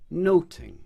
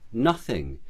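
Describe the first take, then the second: First: The middle consonant is a t sound. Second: The middle consonant is a th sound.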